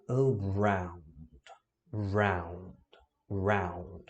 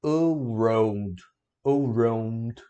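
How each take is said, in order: First: "around" ending in an "au" glide; correct take. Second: "around" with an O sound, /orod/; wrong take. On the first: Teacher drilling students on the right "around". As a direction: glide "round" through A into U. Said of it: "Você vai falar". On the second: Teacher showing students the wrong "around". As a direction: say "around" rounding it into O. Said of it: "você não vai falar". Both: Shown as a demonstration.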